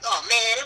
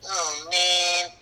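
First: The voice sounds angry and irritated. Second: The voice sounds sad and downcast. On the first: The character is annoyed. "he could be mad" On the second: The character is unhappy. "or sad"

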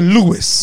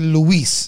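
First: The name is said in an English way. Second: The name is said in a Spanish way. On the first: This is the name people used after moving. "I pronounce it Lewis" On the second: This is the name given at birth. "you pronounce it Luis"

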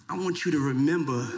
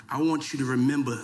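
Both takes have the same delivery.

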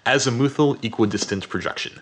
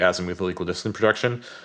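First: The phrase is said slowly and deliberately. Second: The phrase is said at a normal pace.

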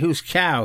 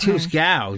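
First: The second syllable sounds like 'cow'. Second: The second syllable sounds like 'gal'. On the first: The speaker calls it wrong. "I'm wrong. I say who's cow" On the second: The speaker calls it right. "It's who's gal"

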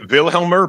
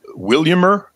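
First: The middle of the name sounds like 'helm'. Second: The middle of the name sounds like 'liam'. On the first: This is how most people say the name. "A lot of people say Wilhelmer" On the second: This is how the man himself said his name. "but he pronounced it Williamer"

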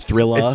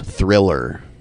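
First: The final R is dropped, ending in ah. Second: The final R is clearly pronounced. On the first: The speaker calls it right. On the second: The speaker calls it wrong.

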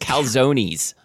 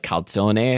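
First: The word has an anglicized pronunciation. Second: The word has an Italian-style pronunciation. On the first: "these were always calzones" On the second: "It would be more like calzone"

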